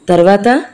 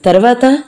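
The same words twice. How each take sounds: First: Said in the usual way. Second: Anxious rising "తర్వాత?"; "తర్వాత?" rising sharply as an anxious plea; urgent question. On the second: Acted. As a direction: push him for the rest. Mohan urgently asks what happened next.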